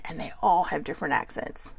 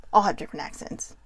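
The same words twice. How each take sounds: First: Said in the usual way. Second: Soft whispered repeat; whispered echo. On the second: Real, not acted. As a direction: breathe it again as an aside.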